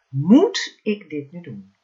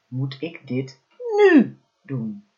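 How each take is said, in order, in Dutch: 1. De klemtoon valt op het woord moet. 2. De klemtoon valt op het woord nu. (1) "elke keer de klemtoon op een ander woord gelegd" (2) "elke keer de klemtoon op een ander woord gelegd"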